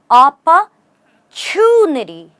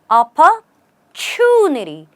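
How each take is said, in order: First: The middle consonant sounds like ch. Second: The middle consonant sounds like ch.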